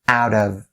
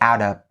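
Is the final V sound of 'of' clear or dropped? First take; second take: clear; dropped. First: The V sound at the end is clearly pronounced. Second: The V sound at the end is dropped. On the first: The speaker calls it right. "make sure you have the V sound distinctly pronounced for the word of" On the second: The speaker calls it wrong. "Don't say out of, out of. No, it's wrong"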